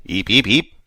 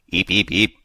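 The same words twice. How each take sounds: First: Breathless little eeps; whispered creature squeak. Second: Shouted creature squeak. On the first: Creature reply. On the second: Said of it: "Dexter shouted". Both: A narrator's reading.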